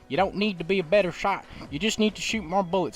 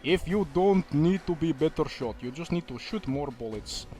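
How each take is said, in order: First: It is said in an American accent. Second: It is said in a non-American accent.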